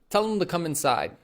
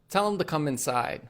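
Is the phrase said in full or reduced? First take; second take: reduced; reduced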